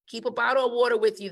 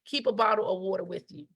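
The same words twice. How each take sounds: First: Faster, insistent repeat; fast, pressing reminder; quick emphatic repeat. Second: Said in the usual way. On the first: Shown as a demonstration. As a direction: rattle it off again to drive it home. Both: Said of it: "I would tell my staff time and time again".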